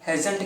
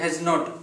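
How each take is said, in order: First: It is said as one contracted word. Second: It is said as two full separate words. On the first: "short form में अगर use करेंगे हैजंट कह सकते हैं" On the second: "long form में"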